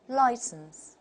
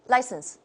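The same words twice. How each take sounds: First: The diphthong is long and fully glided. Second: The diphthong is short and not fully glided. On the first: The speaker calls it right. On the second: The speaker calls it wrong.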